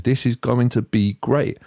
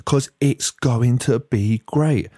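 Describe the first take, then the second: First: Said in the usual way. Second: Slow sarcastic "great" drawn out; mock enthusiastic. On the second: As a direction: sneer at their enthusiasm. Mocking their enthusiasm.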